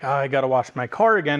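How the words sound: It sounds reluctant and full of dread.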